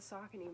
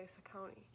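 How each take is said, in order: First: Saucony said SOCK-uh-nee; own pronunciation. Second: Saucony said suh-KOH-nee; other people's pronunciation. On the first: Runner showing how she always says it, Saucony as SOCK-uh-nee. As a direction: put the stress of Saucony on SOCK. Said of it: "I always pronounce it Saucony". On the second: Runner showing how some others say it, Saucony as suh-KOH-nee. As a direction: put the stress of Saucony on a long KOH. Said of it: "I hear some people say Saucony". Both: Shown as a demonstration.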